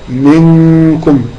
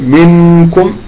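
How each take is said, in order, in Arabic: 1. النون مخفاة، مغنّاة، ومنحرفة نحو الكاف. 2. النون تُنطق بوضوح من طرف اللسان. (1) "يتحول مخرج النون من طرف اللسان... إلى قرب مخرج حرف الإخفاء" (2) "بدل ما أقول منكم لا"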